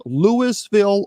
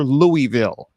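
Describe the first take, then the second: First: Louisville said slowly as LOO-iss-vil; Louis-ville with sounded S. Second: Louisville said slowly as LOO-ee-vil; Louie-ville with silent S. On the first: Host offers Wilma a choice, Louisville as LOO-iss-vil. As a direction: say Louisville with a clear S in the middle. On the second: Host offers Wilma a choice, Louisville as LOO-ee-vil. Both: Shown as a demonstration. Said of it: "is it pronounced Louisville or".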